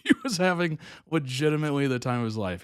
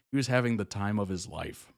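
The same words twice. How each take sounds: First: Laughing, faster. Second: Said in the usual way. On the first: Real, not acted.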